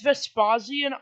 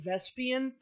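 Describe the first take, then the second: First: The name is said with every syllable included. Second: The name is said with a middle syllable dropped. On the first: The speaker calls it right. "It's Vespasian" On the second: The speaker calls it wrong. "I realized I keep saying Vespian"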